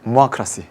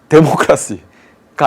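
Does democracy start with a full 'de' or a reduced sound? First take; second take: reduced; full 'de'. First: The first syllable is reduced and barely heard. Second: It starts with a full, clear 'de' syllable. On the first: The speaker calls it right. "자신 있게 해보겠습니다" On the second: The speaker calls it wrong. "데모크라시가 아니라"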